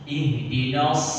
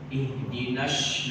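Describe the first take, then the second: First: The final consonant is a heavy emphatic s. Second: The final consonant sounds like a sh. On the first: The speaker calls it right. "Sedangkan ini adalah shod" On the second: The speaker calls it wrong. "itu sudah masuk ke shin, dia bukan shod"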